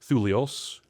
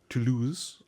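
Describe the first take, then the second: First: The name is said in a Greek-sounding way. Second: The name is said in a French-sounding way. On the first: "I've been Greek"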